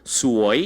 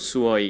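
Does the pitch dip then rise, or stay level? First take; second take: dip-rise; level. First: The pitch falls and then rises. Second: The pitch stays flat throughout. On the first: It means pretty. "이게 내려갔다 올라가야 돼요" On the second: It means unlucky or annoying. "이렇게 평성으로"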